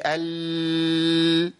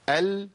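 First: ال with the L dragged out far too long; overlong lam. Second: ال with the L held only briefly; medium-length lam. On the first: Teacher shows what not to say, overlong flowing L in ال. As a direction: let the L in ال run on and on. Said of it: "انا عملت رخاوه". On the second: Teacher models it for students to repeat, medium-length lam in ال. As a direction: say ال without running the sound on. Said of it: "انا ما مشيتش الصوت قوي". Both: Shown as a demonstration.

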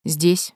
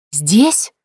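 First: Said in the usual way. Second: Louder, sharply rising outraged query; outraged question. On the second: A narrator's reading. Mother and daughter flaring up at once, outraged. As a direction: flare up in disbelief on a rising tune. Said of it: "В один голос взвились мать и дочь".

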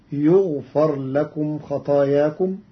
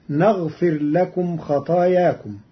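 First: يغفر starting with yu and a on the ف; يغفر in the passive; passive yughfar. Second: Said in the usual way. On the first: Shown as a demonstration. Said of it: "بالياء المضمومة وفتح الفاء". (يغفر بالياء المضمومة وفتح الفاء) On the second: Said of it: "قرأ قالون كلمة نغفر".

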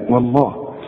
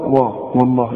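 First: والله with a thin و and a heavy lam; correct recitation. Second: وا with a heavy و before الله; mock wrong reading. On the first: Shown as a demonstration. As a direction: say والله softly with a light و. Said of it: "لا، وا". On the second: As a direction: say وا thick. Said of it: "فما تقولش بقى".

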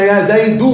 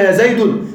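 First: يا زيد said as yā zaydu, short u with no final n; correct vocative. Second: يا زيد said as yā zaydun, ending in -un; wrong form with tanween. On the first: Teacher showing students the correct يا زيد as zaydu. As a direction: drop the tanween: يا زيد as zaydu. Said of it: "نحن قلنا يا زيد". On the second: Teacher voicing the wrong vocative يا زيد as zaydun. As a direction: add the nunation: يا زيد as zaydun. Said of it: "لكن نحن ما قلنا يا زيد". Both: Shown as a demonstration.

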